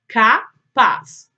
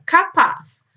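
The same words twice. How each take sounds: First: "Capaz" in two loud beats, "Ca", pause, "paz"; split into syllables. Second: Said in the usual way. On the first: Shown as a demonstration. Teacher showing pupils how to count syllables, "Capaz" syllable by syllable. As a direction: break "Capaz" firmly into "Ca" and "paz". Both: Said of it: "separar as palavras em sílabas".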